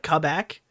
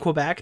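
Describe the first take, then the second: First: It is pronounced with a French accent. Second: It is pronounced with an English accent. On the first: This is what locals call it. The speaker calls it right. "They call it Quebec. / That's the French pronunciation" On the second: This is not what locals call it. The speaker calls it wrong. "They don't call it Quebec in Quebec"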